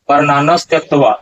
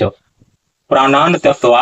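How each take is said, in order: First: An s sound is joined before tyaktva. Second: No s sound is heard before tyaktva. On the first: The speaker calls it wrong. "ये दोनों उच्चारण बिल्कुल सही नहीं है" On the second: The speaker calls it right. "यहाँ उच्चारण होगा"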